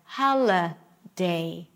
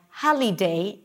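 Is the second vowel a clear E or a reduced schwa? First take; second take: schwa; clear E. First: The second vowel is a reduced schwa sound. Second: The second vowel is a clear E sound. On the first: The speaker calls it right. "instead of hala day" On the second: The speaker calls it wrong. "the I will be pronounced as E"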